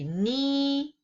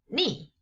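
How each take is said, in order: First: The pitch stays high and level. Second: The pitch falls sharply from high to low.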